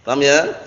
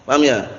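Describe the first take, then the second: The two takes are said the same way.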